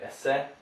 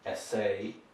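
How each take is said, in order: First: The final vowel is clipped short. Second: The final vowel is a long A. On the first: The speaker calls it wrong. "clipping the, the French ending and making it short" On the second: The speaker calls it right. "you've got a long A sound here"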